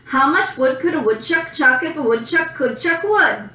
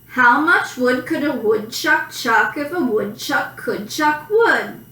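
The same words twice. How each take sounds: First: It is spoken quickly, at a fast pace. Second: It is spoken at a normal, unhurried pace.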